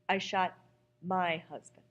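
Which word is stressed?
my. The stress falls on the word my.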